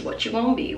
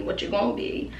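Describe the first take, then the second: First: Said in the usual way. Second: Whispered What you gonna be. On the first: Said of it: "What you gonna be? (whispered take)". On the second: Shown as a demonstration. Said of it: "What you gonna be? (voiced take)".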